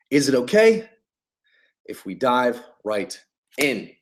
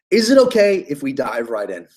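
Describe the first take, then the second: First: Paused ask. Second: Said in the usual way. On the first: Shown as a demonstration. Coach shows a sales opener, split with a pause and trailing softer. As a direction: pause after okay, then soften if we dive right in. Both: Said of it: "That's what you say".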